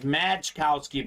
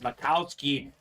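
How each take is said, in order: First: The name is said as spelled, with a J sound. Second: The name is said without any J sound. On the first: It follows the spelling. The speaker calls it wrong. "I know it looks like Majkowski" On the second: It is how the name is properly said. The speaker calls it right. "but it's Makowski, the proper pronunciation"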